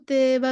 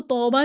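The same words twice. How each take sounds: First: "तैबा" with the alif bent into "ay"; over-thin, tilted first vowel in "तैबा"; हद से बारीक. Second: "तौबा" with an over-rounded "aw" vowel; हद से मोटा. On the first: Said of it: "बिल्कुल तैबा भी नहीं कह देंगे". ("तैबा" में अलिफ पूरा झुकाकर, इमाला) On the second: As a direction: round the lips too far on "तौबा". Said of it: "भी नहीं कह देंगे". ("तौबा" में होंठ गोल, वाव जैसी आवाज़) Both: Shown as a demonstration.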